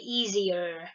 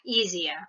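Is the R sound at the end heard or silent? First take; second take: heard; silent. First: It ends with a clear R sound. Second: It ends without an R sound. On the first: "But if it's American English, ano, masyado silang focus naman dun sa R" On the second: "This is British accent actually, or British English"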